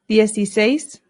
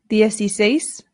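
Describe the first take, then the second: Both takes have the same delivery.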